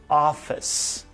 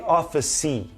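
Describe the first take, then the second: First: The word ends on its final consonant sound. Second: The word ends with an added ee vowel. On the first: The speaker calls it right. "You say office. It ends here in this consonant sound" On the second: The speaker calls it wrong. "You don't say office-y"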